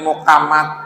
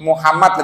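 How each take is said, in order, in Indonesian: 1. Bunyi h diucapkan lebih mirip k. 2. Nama itu diucapkan dengan lafal baku.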